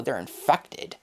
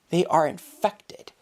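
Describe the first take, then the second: First: Said in the usual way. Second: "They are infected" said slower, each word spaced; deliberate restatement. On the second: Shown as a demonstration. Vlogger insists to viewers, slow firm "They are infected".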